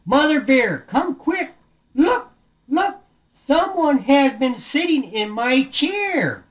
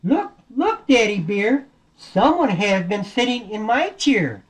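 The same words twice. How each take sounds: First: High, urgent story-bear call; alarmed Daddy Bear. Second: High mama bear echoing the alarm; lightly acted alarm, higher and slower. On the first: Acted. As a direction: call out the discovery, slowing at the end. Daddy Bear calls about his chair. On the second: Mama Bear echoes about her chair.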